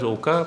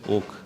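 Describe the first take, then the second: First: The name is said with two syllables. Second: The name is said with one syllable. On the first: The speaker calls it wrong. "many pronounce him as Oka" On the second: The speaker calls it right. "but the pronunciation is Oak"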